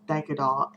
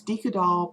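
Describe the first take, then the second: First: Dyka doll starting like "die"; alternate pronunciation. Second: Deca doll with a long "ee", DEE-kuh; preferred pronunciation. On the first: Vlogger giving the way she has heard it, DIE-kuh doll. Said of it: "which I've heard is". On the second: Vlogger naming the doll her current way, DEE-kuh doll. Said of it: "I switched it to Deca doll". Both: Shown as a demonstration.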